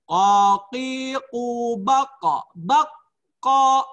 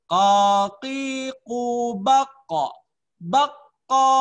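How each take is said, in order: First: "Qaqiqu baqa." drawn out slowly, higher and louder; slow loud model. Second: "Qaqiqu bakko." drawn out very slowly, higher and louder; slow loud model. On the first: Teacher leads the class to repeat after him, slow and loud. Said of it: "Ikuti sesudah saya". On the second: Teacher repeats the drill for students, slow and loud. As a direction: repeat it slowly for the class to echo. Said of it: "Ulangi lagi ya". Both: Shown as a demonstration.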